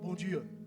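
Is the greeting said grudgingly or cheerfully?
grudgingly. It is said flatly and grudgingly.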